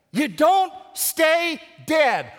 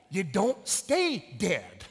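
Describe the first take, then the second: First: High, loud, drawn-out proclamation; preached shout. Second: Said in the usual way. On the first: Real, not acted. Pastor repeating the point to the congregation, preached shout. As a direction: shout it out word by slow word.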